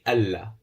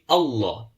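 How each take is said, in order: First: The L is said light, with a thin mouth. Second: The L is said heavy, with a full mouth. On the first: The speaker calls it wrong. "It won't be Allah" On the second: The speaker calls it right. "you pronounce the, the Lam of Allah with a full mouth"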